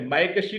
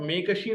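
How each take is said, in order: First: The first vowel is pronounced as 'ai'. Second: The first vowel is pronounced as 'e'. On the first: The speaker calls it right. "मायकशी को आप" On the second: The speaker calls it wrong. "मेकशी नहीं कहेंगे"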